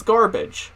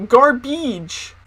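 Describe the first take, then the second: First: Said in the usual way. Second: "garbage" with a long ee ending; imitating "garbage" as gar-BEEDGE; odd E sound. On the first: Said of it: "'cause it's garbage". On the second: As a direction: stretch the second syllable of "garbage" to "beedge". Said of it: "we heard garbage".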